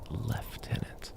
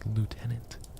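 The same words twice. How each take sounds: First: The first syllable has an F sound, 'leff'. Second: The first syllable has no F sound, 'loo'. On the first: The speaker calls it wrong. "there are people who pronounce it as ... where is the F noise?" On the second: The speaker calls it right. "It's lieutenant. Like L I E A U. ... There's no F"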